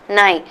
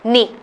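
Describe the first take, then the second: First: The vowel sounds like 'eye'. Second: The vowel sounds like 'ee' in 'see'. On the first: The speaker calls it right. "but it's na, nai" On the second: The speaker calls it wrong. "you might come back and say nihil, ni"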